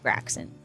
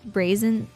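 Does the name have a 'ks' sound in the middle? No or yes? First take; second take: yes; no. First: The name is said with a 'ks' sound. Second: The name is said without a 'ks' sound. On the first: This is how the speaker thought it was said. "I thought you pronounced the X" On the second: This is how someone else said it. "I heard somebody pronounce that brazen"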